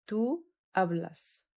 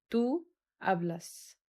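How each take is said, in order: First: Tú hablas again drawn out, falling at the end; slow repeat. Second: Very slow, each syllable drawn out; slow model pronunciation. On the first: Teacher repeating Tú hablas to the class, slowly. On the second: Teacher modelling Tú hablas for students, very slow. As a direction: spell out Tú hablas for the class slowly. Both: Shown as a demonstration. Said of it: "حرف ال H silent".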